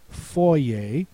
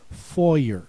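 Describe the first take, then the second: First: The word ends with an 'ay' sound. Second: The word ends with an 'er' sound. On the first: "the next word has E R that says A" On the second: "which is a more English way of saying it"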